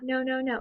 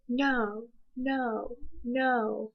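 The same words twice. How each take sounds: First: The three noes are run together without pauses. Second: Each no is followed by a clear pause. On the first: The speaker calls it wrong. "it's not" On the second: The speaker calls it right.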